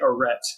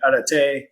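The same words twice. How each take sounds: First: It is said with an American accent. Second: It is said with a French accent.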